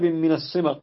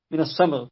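First: "الصمغ" with an i-like vowel, as "simgh"; misread vowel. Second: "الصمغ" with an open first vowel, as "samgh"; corrected vowel. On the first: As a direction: say "الصمغ" as "as-simgh", a reading slip. Reader slips, then repeats corrected. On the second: Reader repeats to correct vowel. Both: Real, not acted.

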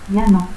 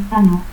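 First: Said in the usual way. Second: Zano, a harder sound for LL; altered LL. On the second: Shown as a demonstration. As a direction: say llano as "Zano". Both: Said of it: "teísmo".

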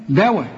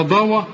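First: دواء with a plain thin د and fronted vowel; light dal. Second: ضوى with a thick, dark ض and back vowels; heavy dad for dal. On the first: Teacher contrasts dal with dad, دواء said thin. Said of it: "الدال دواء". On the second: Teacher mocks the student's error, ضوى said heavy. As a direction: thicken the first consonant of ضوى. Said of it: "ولا ضوى؟". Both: Shown as a demonstration.

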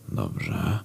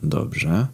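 First: "dobrze" muttered much lower and much softer; quiet mutter. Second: Said in the usual way. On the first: Retold or imitated. Narrator swallowing anger after the door shuts, low mutter. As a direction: sink "dobrze" into a low, soft grumble.

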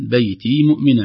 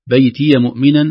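First: "بيتي" with a silent ya, "bayti". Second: "بيتي" with an open ya, "baytiya". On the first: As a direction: say "بيتي" ending in ee. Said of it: "أو". (ياء ساكنة) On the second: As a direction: say "بيتي" with a fatha on the ya. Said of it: "تأتي إما مفتوحة". (ياء مفتوحة) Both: Shown as a demonstration.

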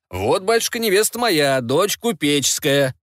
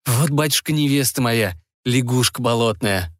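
First: Higher, slower proud showing-off; boastful middle brother. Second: Put-on glum young Ivan. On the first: Acted. Second son shows his merchant bride to father, high and proud. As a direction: present the bride like a prize. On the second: Ivan shows father his swamp frog bride, resigned and glum. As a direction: admit the frog bride without pride.

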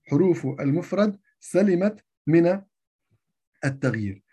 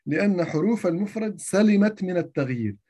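First: سلمت stressed, phrase spoken slowly; slow emphatic repeat. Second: Said in the usual way. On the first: Shown as a demonstration. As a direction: lean on سلمت to drive the rule home. (تشديد على كلمة سلمت مع إبطاء)

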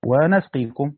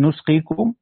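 First: ونسقيكم as "wa-nasqikum", louder; fatha on the nun. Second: نسقيكم as "nusqikum", louder, questioning rise; damma on the nun. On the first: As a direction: stress the "a" reading of ونسقيكم, "wa-nasqikum". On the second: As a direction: stress the "u" reading of نسقيكم, "nusqikum". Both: Shown as a demonstration. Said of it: "هيبقى الفرق بينهم إيه".

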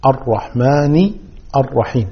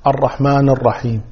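First: الرحمن الرحيم slowly, "ar-rahmaani", pause; kasra on nun. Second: الرحمن الرحيم with a vowelless n, "ar-rahman"; silent final nun. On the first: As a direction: draw out الرحمن to a clear final i. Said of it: "بكسر النون". (الرحمن بكسر النون على مهل) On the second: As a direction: stop the n of الرحمن dead, no i. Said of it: "البعض يقرأها ساكنة". (تسكين نون الرحمن) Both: Shown as a demonstration.

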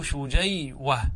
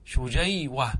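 First: Slow demo. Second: Said in the usual way. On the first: Shown as a demonstration. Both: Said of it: "وأصله شجيوة".

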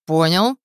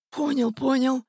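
First: Loud, sharply rising question; stern demand. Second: Put-on high, placating old man's voice; servile old man. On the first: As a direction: demand an answer firmly and loudly. Hunter demands the old man's assent. (строгий громкий вопрос) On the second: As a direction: agree meekly in a high voice. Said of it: "быстро закивал Графка". (заискивающе, высоким стариковским голосом) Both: A narrator's reading.

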